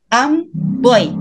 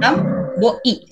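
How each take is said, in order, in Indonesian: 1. Vokal akhir itu menyatu menjadi satu. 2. Vokal akhir itu dipisahkan.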